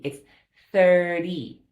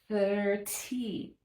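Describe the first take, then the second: First: The middle consonant is a soft D sound. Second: The middle consonant is a crisp T sound. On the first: The speaker calls it right. "like a D" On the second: The speaker calls it wrong. "we don't have to say that with the T"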